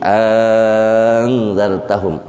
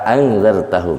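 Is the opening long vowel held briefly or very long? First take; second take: very long; briefly. First: The opening vowel is stretched out to six counts. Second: The opening vowel is lengthened by a normal amount. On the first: "isba, enam harkat" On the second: "Madnya mad uh, mad tabi'i"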